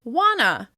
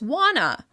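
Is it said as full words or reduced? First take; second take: reduced; reduced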